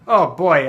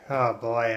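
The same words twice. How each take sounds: First: It sounds bright and eager. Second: It sounds weary and low in energy. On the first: The speaker looks forward to something. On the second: The speaker is worn out.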